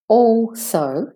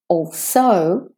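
First: The stress is on the first syllable. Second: The stress is on the second syllable. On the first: "if I say it with the stress on the first syllable" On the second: "If I say it with the stress on the second syllable, also, it doesn't sound right"

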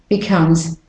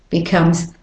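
No difference in how they are said.

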